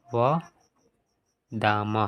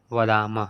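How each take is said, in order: First: Slow dictation. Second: Said in the usual way. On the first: Shown as a demonstration. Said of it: "यहाँ पे हो जाएगा". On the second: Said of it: "यहाँ पे क्या हो जाएगा?".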